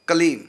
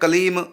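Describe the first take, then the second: First: The final m ends with the lips closed. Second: The final m opens into a full ma. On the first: The speaker calls it right. "होठ बंद ही रहे, खुले ना" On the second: The speaker calls it wrong. "ये अशुद्ध हो गया, क्योंकि हमने होठ खोल दिए"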